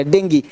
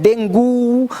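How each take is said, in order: First: "डेंगी" ending in ee, low and falling; correct pronunciation. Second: "डेंगू" with a long drawn-out oo ending; wrong pronunciation. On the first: Teacher models dengue, "डेंगी" ending in ee. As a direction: say "डेंगी" like "den-gee", hard g. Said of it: "इसको डेंगी बोलना है". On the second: Teacher shows the common mistake, "डेंगू" ending in long oo. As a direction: say "डेंगू" slowly, stretching the final oo. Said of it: "तो डेंगू नहीं". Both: Shown as a demonstration.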